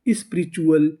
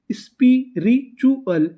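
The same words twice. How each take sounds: First: Said in the usual way. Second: spiritual pulled out slowly, sound by sound; slow blending. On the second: Shown as a demonstration. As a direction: draw out spiritual for the class. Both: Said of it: "तो पूरी meaning".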